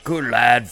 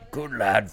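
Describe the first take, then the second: First: The voice is pitched higher. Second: The voice is pitched deeper. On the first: The speaker calls it wrong. "Now you're getting there" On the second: The speaker calls it right.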